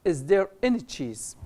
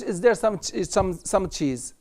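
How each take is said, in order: First: "any" said clearly in the question; stress on any. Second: Said in the usual way. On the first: Shown as a demonstration. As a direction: lean on "any" as the right word. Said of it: "بنقول". (تشديد على any) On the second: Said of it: "ما نقولش".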